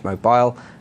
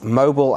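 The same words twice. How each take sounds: First: Mobile is said in an English accent. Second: Mobile is said in an American accent.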